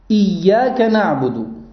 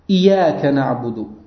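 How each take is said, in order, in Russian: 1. Звук ya удвоен. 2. Звук ya одинарный. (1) "с удвоением буквы «Я»" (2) "А чтец читает его без удвоения"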